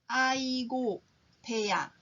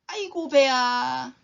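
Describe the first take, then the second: First: It is said slowly. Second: It is said at normal speed.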